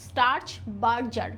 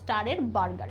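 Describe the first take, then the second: First: It sounds like 'starch barjar' with a j sound. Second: It sounds like 'star-er burger' with a hard g. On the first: It is the actual pronunciation. The speaker calls it right. "এটার উচ্চারণ কিন্তু" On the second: It is a memory aid. The speaker calls it wrong. "এভাবে মনে রাখতাম"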